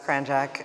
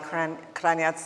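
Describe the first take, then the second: First: The surname has an American English pronunciation. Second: The surname has its Croatian pronunciation. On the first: "in the U S, it's Kranjak" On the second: "we'll we'll go with the European pronunciation"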